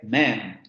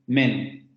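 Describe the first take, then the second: First: The vowel is a more open, wider sound. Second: The vowel is a closed, Spanish-like e. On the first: The speaker calls it right. "Es man" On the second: The speaker calls it wrong. "porque men, así como está transcrito, sería como la nuestra"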